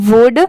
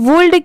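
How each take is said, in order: First: The word is said without an L sound. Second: The word is said with an L sound. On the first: The speaker calls it right. "इसे हम क्या पढ़ेंगे? वुड" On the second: The speaker calls it wrong. "इसे हम वुल्ड क्यों नहीं पढ़ते"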